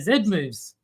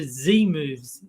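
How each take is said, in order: First: The letter is said as 'zed'. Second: The letter is said as 'zee'. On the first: The speaker calls it right. "no, they're Z moves. You're Australian" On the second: The speaker calls it wrong. "he refers to Z moves"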